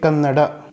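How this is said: The final vowel is clearly pronounced. This is how South Indians say it. "we South Indians explicitly pronounce the Alpaprana. We say it Kannada"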